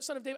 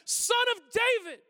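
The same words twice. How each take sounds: First: It is said hesitantly and apologetically. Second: It is shouted with intense passion.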